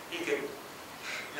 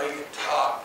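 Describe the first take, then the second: First: Slow, breathless whisper; barely voiced, like a lost voice; voiceless whisper. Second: Said in the usual way. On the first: Father lost his voice.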